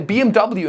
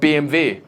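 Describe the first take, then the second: First: The letters are said with an American pronunciation. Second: The letters are said with a German pronunciation. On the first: The speaker calls it wrong. "I say" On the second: The speaker calls it right. "instead of"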